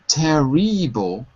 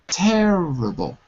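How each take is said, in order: First: The middle vowel is pronounced as a full vowel. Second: The middle vowel is reduced to a quiet uh. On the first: The speaker calls it wrong. "it's not terrible" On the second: The speaker calls it right. "we say them as an uh sound"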